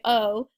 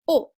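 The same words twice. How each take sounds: First: The lips barely move or round. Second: The lips are tightly rounded into a circle. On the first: "in English, we can say O, and I barely moved my mouth" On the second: "in French, ... you should actually be making your lips into an O shape"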